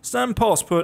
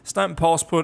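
First: It is spoken in a put-on Russian accent. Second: It is spoken in the speaker's natural accent. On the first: "I'll drop the Russian accent" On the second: "I'll drop the Russian accent, sorry about that"

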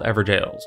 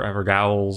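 First: The ending is pronounced like jail. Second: The ending is pronounced like gowl. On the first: The speaker calls it right. "these are called Everjails" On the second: The speaker calls it wrong. "any other odd pronunciation"

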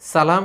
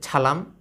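First: The word begins with a hissing 's' sound. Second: The word begins with an aspirated 'chh' sound. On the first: The speaker calls it right. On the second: The speaker calls it wrong.

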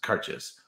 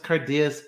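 First: The word sounds much like 'car chase'. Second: The middle does not sound like 'chase'. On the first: The speaker calls it right. "It's pronounced Karcher's. Kind of like car chase" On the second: The speaker calls it wrong. "some people pronounce this Cardias"

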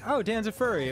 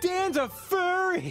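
First: It sounds like a plain, matter-of-fact statement. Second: It sounds like a teasing, mocking exclamation.

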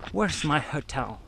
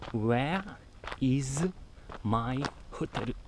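First: It is said in ordinary English pronunciation. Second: It is said with Japanese-style pronunciation.

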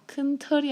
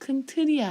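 First: The second word has an open 'eo' vowel. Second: The second word has a close 'eu' vowel. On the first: The speaker calls it wrong. "큰 털이 아니고" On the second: The speaker calls it right. "큰 틀이야 해봐"

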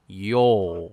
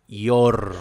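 First: The final R sound is almost silent. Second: The final R sound is clearly pronounced. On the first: The speaker calls it right. "digo yo. Casi no se la siente a la R" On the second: The speaker calls it wrong. "yo no digo your, ¿ven? No digo algo así"

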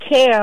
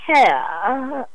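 First: The word ends plainly with no added sound. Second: The word ends with a little extra flourish. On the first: "instead of saying care" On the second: "You put that little extra something on the end"

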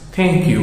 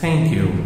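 First: The first sound is a plain t. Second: The first sound is a breathy th. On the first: The speaker calls it wrong. "porque thank you é com T" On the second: The speaker calls it right. "Eu vou pronunciar dessa forma"

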